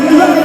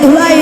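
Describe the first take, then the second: The two takes are said the same way.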